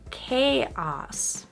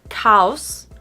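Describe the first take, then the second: First: Each vowel sound is said separately. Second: The vowel sounds run together. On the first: The speaker calls it right. "we actually do say each vowel sound separately in this word" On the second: The speaker calls it wrong. "Not chaos"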